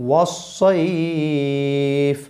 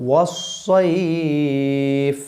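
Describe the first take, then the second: Both takes have the same delivery.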